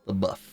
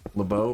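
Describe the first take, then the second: First: The name ends in an 'uff' sound. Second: The name ends in an 'oh' sound. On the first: The speaker calls it right. "That's really how you pronounce the name?" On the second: The speaker calls it wrong. "I thought it was Bo. I thought it was like the F's are silent"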